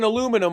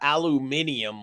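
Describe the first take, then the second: First: It is said with the American pronunciation. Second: It is said with the British pronunciation. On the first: The speaker calls it right. "The British people start to have to say fucking aluminum" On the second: The speaker calls it wrong.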